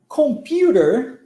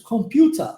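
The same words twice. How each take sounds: First: Slow American "Computer" with a closed R; American accent, curl the final R; American English. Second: British "computer" ending in an open "ah"; British English. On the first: Teacher contrasting with British English, American "Computer" drawn out. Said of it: "no inglês americano e canadense ser mais fechada". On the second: Teacher showing a more open version, British "computer" without R. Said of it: "mais aberto que isso". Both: Shown as a demonstration.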